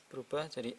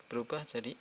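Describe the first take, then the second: Both takes have the same delivery.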